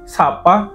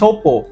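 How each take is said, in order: First: Both vowels are open 'a' sounds. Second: Both vowels are 'o' sounds. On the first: "dia tetap mempertahankan bunyi A" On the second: "huruf A tadi biasa diubah menjadi O"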